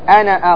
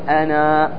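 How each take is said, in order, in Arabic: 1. تنتهي الكلمة بحركة قصيرة في آخرها. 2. تنتهي الكلمة بحركة طويلة في آخرها. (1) "أنا أقل بنون مفتوحة بدون ألف" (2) "لما تقف تقول أنا، واضح بالألف"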